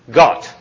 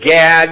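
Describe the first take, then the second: First: The vowel is an open aw sound. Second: The vowel is a flat A sound. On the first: "It's aw" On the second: "Gad would only be said as Gad in America because we do flat A's"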